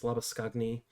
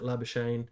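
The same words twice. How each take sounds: First: The name is said with an Afrikaans pronunciation. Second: The name is said the anglicized, phonetic way. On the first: The speaker calls it right. "the proper Afrikaans pronunciation is Labuschagne" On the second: The speaker calls it wrong. "lots of people pronounce it Labuschagne"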